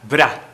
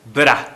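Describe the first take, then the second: Both takes have the same delivery.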